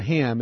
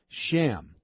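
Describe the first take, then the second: First: The name begins with an h sound. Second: The name begins with a sh sound. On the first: The speaker calls it wrong. "It's not Ham" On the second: The speaker calls it right. "There's an S at the beginning of it"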